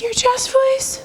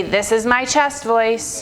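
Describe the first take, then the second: First: High head-voice question; teasingly high register. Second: Low, slow chest voice; slow chest-register demonstration. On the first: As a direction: ask it way up in head voice. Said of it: "Head voice". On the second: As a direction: drop into chest voice, measured. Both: Shown as a demonstration.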